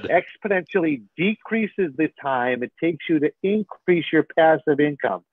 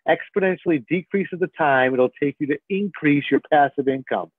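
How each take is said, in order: First: It is said a little slowly. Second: It is said at normal speed.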